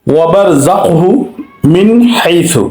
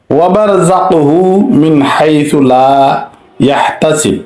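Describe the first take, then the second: First: মিন হাইসু recited again, nun distinct; tajweed example once more; recitation repeated. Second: Slow recitation with মিন kept clear before হাইসু; measured tajweed reading; recitation demo. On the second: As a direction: recite মিন হাইসু, nun pronounced distinctly. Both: Shown as a demonstration. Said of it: "এখানে স্পষ্ট করতে হবে".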